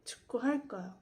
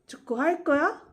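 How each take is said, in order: First: The pitch does not rise at the end. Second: The pitch rises at the end. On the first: It states that I will play soccer. "these last two times were simply a sentence" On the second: It asks whether you will play soccer. "I'll repeat the question form once again"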